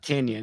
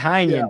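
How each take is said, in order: First: The first syllable does not sound like 'tie'. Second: The first syllable sounds like 'tie'. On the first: The speaker calls it wrong. "Not Tinian" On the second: The speaker calls it right. "It's Ty"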